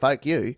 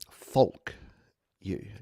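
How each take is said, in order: First: An Australian accent drops the L sound. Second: The L in 'folk' is clearly pronounced. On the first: The speaker calls it wrong. "if I say it like an Australian" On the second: The speaker calls it right. "Gotta get the L in there"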